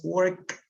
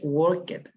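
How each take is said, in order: First: The ending is a bare final consonant cluster. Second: The ending is said as an extra syllable. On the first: The speaker calls it right. "pero es work" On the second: The speaker calls it wrong. "No se lee worked"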